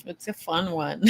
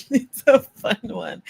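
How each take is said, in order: First: Said in the usual way. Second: Said through a giggle, higher and louder; bubbly laughing take. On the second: Acted. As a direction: giggly repeat of the line.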